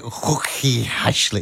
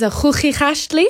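First: Hooky Ashley, slow, with soft English h sounds; attempted Hooky Ashley, anglicised. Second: Hooky Ashley with rasping throat sounds, xʊxi; Dutch-style hooky Ashley; throaty Dutch pronunciation. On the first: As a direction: try Hooky Ashley slowly, no throaty sound. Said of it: "how do you say it?". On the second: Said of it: "in the back of your throat". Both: Shown as a demonstration.

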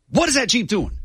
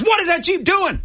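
First: Imitated grumpy cop, higher pitch; angry cop question. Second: Imitated cop, far higher and sharper; angrier cop repeat. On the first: Cop quizzing the driver at the Jeep, mock annoyed and high. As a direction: demand it like an annoyed officer. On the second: Cop repeats his question to the driver, mock exasperated and very high. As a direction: push it up, losing patience. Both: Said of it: "having a really bad day".

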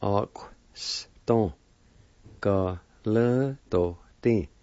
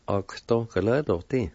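First: "Ox-, ton. Ga-le-to-ti" slowly, syllables apart; slow teaching take of "Ox-, ton. Ga-le-to-ti"; syllable-by-syllable demo. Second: "Ox-, ton, ga-le-to-ti" run together fluently; connected take of "Ox-, ton, ga-le-to-ti"; joined-up pronunciation. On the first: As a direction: sound out "Ox-, ton. Ga-le-to-ti" with pauses. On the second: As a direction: blend the syllables of "Ox-, ton, ga-le-to-ti". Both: Shown as a demonstration. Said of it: "And together".

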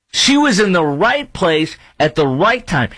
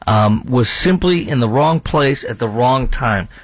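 First: Raised high, insisting she was in the right place; indignant and much higher, stressing right; indignant correction. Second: Said in the usual way. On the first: Real, not acted. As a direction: push back hard on the reporter's words. Correcting the reporter's phrase. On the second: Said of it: "A reporter says".

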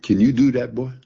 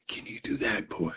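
First: Said in the usual way. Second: Put-on old master whispering a dare to the boy; whispered taunt. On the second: Old bluesman taunting young player.

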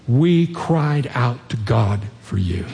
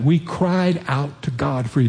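First: Slower and lower, each word weighed; slow emphatic quote. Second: Gently voiced church member, earnest and simple; quoted testimony. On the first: Retold or imitated. Pastor repeating the church's words to his listeners, slow and lower. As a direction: let the words land slowly, deeply moved. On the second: Pastor quoting the praying church members, lightly earnest. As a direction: pass on what they told him, sincerely.

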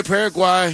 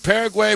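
First: "Paraguay" with last syllable rhyming with "eye"; "-why" ending. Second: "Paraguay" with last syllable rhyming with "say"; "-way" ending. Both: Shown as a demonstration. Trying two pronunciations of the name.

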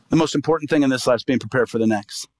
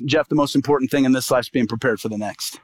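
First: Voice of the Lord repeated. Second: Voice of the Lord. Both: Retold or imitated. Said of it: "heard the voice of the Lord".

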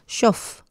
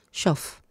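First: Shof, sh at the start, f at the end; sh and f sounds. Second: Shof said quietly, sh then f; soft sound demo. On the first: Teacher explaining a sound to learners, careful shof. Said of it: "se pronuncia shof, como una F". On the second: Teacher repeating a sound, soft shof. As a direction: hush out shof gently. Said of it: "estoy hablando del sonido". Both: Shown as a demonstration.

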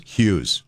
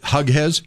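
First: Said in the usual way. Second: "Hughes" said as "HUG-hez", questioning; mispronounced name. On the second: Shown as a demonstration. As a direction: misread "Hughes" in two syllables, HUG-hez, with a rise. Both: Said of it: "they don't pronounce your name".

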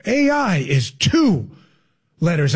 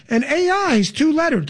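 First: Mock-profound slow repeat, pause before LETTERS; drawn-out parody of a politician; Kamala Harris. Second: Higher-pitched mock politician, first take; mocking high-pitched impersonation; Kamala Harris. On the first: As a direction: say it at half speed as if that adds weight. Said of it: "If I say it slow". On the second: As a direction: parody an earnest explainer at normal speed. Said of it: "Let me say it twice".

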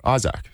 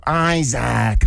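First: Isaac said the Australian way, EYE-zak with a short flat a. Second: Isaac called out a bit higher and stretched, American arena style, a mangled EYE-zak; mock American announcer. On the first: Shown as a demonstration. Aussie player shows hosts how he says his own name, Isaac as EYE-zak. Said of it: "that's how I say my name". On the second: Player mimics Kentucky announcer botching his name Isaac, stretched and higher. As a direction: imitate a US arena announcer trying to say Isaac the Aussie way. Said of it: "the announcer would go".

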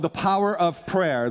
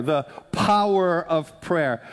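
First: Said in the usual way. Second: "Power" drawn out, each word weighed slowly; slow emphasis on Power. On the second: Real, not acted. Pastor repeating the new series title to the congregation, slow emphasis on "Power".

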